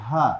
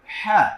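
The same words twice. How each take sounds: First: হ্যাঁ light, with open throat; easy ha. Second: হ্যাঁ squeezed from mid-throat, high and loud; pressed ha. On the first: Teacher drilling the class, হ্যাঁ relaxed and unpressed. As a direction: say হ্যাঁ easily without squeezing. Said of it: "আর সহজভাবে বলো". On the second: Teacher drilling the class, হ্যাঁ tightly pressed. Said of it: "আমরা একটু চাপিয়ে পড়বো". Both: Shown as a demonstration.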